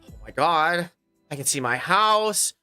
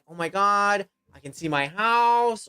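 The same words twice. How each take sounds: First: The voice sounds frightened and panicked. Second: The voice sounds thrilled and excited.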